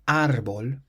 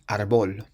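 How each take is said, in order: First: The stress is on the first syllable. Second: The stress is on the last syllable. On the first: The speaker calls it right. "it has an accent on the A, so that's why we say árbol" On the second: The speaker calls it wrong. "and not árbol"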